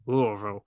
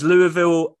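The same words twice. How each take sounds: First: Louisville is said in the American way. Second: Louisville is said in a non-American way.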